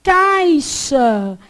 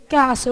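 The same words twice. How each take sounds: First: "Caixa" drawn out with the I clearly heard; over-enunciated "Caixa" keeping its I; full diphthong. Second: "Caixa" said as "caxa", no I; quick colloquial "Caixa" with a plain A; everyday reduced vowel. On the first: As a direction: say "Caixa" slowly and loudly as "cai-xa". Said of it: "Esse I some". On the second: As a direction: drop the I from "Caixa": "ca-xa". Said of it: "você fala o quê?". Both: Shown as a demonstration.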